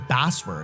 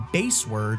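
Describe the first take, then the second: First: The first syllable rhymes with 'mass'. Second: The first syllable rhymes with 'face'. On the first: The speaker calls it right. "I actually just realized it's Bassword" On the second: The speaker calls it wrong. "not Baseword"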